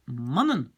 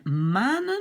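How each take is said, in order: First: Mannen with a short A before the N; short vowel. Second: Manen with a long, open AA; long vowel. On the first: Teacher gives men, not moons, short A in mannen. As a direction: keep the first A of mannen short. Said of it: "Si je rajoute ça". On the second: Teacher contrasts moons with men, long A in manen. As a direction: stretch the first A of manen. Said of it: "ça sera le pluriel de maan". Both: Shown as a demonstration.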